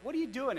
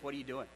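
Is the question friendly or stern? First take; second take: friendly; stern. First: It sounds friendly and curious. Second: It sounds stern and accusing.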